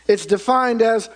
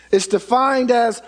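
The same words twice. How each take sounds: The two takes are said the same way.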